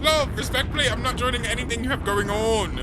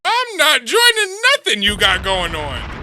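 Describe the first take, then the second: First: High-pitched, raised-voice refusal; loud-ish, high, insistent decline; emphatic refusal. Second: Loud, high, drawn-out shout; loud, slow, high-pitched refusal; indignant outburst. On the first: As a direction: pitch it high, a step below shouting. Rewording the refusal as respectful. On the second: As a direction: holler the refusal, stretching it out. Indignant comeback to the video's invitation. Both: Real, not acted.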